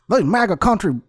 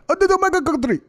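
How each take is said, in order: First: It imitates a racist MAGA supporter's voice. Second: It is said in an imitated Nigerian accent.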